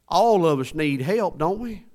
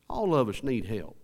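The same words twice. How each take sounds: First: Loud, high rallying call to the congregation; emphatic preaching. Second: Said in the usual way. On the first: Real, not acted. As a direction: punch it out, pitched high and loud. Preacher drives the point home.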